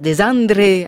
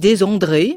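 First: The name is pronounced the Italian way. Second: The name is pronounced the French way. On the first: "vraiment à l'italienne" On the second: "ou à la française"

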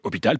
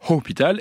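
First: The initial h is silent. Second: The initial h is audibly breathed out. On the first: The speaker calls it right. "On dit hôpital" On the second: The speaker calls it wrong. "pas hôpital"

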